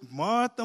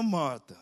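First: High, loud first call. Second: Gentler second call. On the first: Jesus calling Martha, first call loud and high. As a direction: call her name sharply. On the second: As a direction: settle it down on the repeat. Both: Acted. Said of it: "If Jesus say something to you twice".

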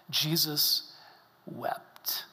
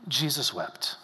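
First: Hushed whisper. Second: Said in the usual way. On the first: Shown as a demonstration. Preacher reads "Jesus wept" hushed.

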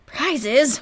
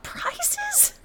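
First: Said in the usual way. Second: High, soft disbelieving squeak; incredulous squeak. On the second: Retold or imitated. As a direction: squeak the word Prizes in horror. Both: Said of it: "What was I thinking of?".

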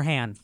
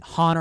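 First: "Han" rhyming with can; short "a" of "cat" in "Han". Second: "Han" said as HAHN; Han with broad a. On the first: Adding to the pronunciation question, "Han" rhyming with can. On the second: Adding to the pronunciation question, "Han" as HAHN. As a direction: open "ah" vowel in "Han". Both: Shown as a demonstration. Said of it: "Is it pronounced".

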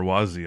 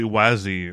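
First: "wasi" with a different vowel from the first reading; alternative pronunciation. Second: "wasi" as one candidate pronunciation; first pronunciation option. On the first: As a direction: offer "wasi" as the other possible reading. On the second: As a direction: offer "wasi" tentatively, as the first of two readings. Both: Shown as a demonstration. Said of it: "not sure how it's pronounced".

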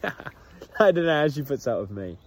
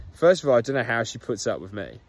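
First: Says it again through a real laugh; chuckling repeat. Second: Said in the usual way. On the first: Real, not acted. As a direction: laugh the line out, amused at himself.

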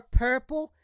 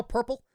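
First: 'purple' with a PAIR vowel, pitched higher; P-E-R purple. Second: 'purple' with the usual PUR vowel, rising; current purple. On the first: Reminding his cousin how he said it, PAIR-vowel 'purple'. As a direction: say 'purple' as if spelled PER, like PAIR-pul. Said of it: "It was like P E R". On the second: Checking with cousin if he says it right, standard 'purple'. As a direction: ask 'purple' as PUR-pul with a neutral vowel. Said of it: "do I say it right now". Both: Shown as a demonstration.

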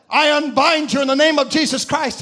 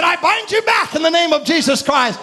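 First: Said in the usual way. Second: Retold binding order, fired out with force; forceful command. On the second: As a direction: command the serpent with sudden authority. Retold command binding the serpent again.

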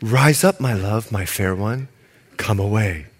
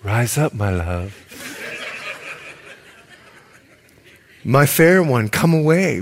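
First: Romantic reading. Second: Tender lover's call, breaking into a laugh; laughing romantic reading. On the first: Preacher reads the lover's call to the congregation, low and tender. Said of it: "I'm gonna read it like the way it should be". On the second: Preacher imagining the lover at the window, laughing through it. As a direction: croon it, then crack up. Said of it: "just imagine this guy looking through the line". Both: Shown as a demonstration.

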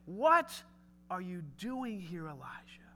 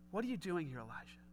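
First: Hushed question. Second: Said in the usual way. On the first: Shown as a demonstration. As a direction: ask it gently, almost under the breath. God's question repeated, softly.

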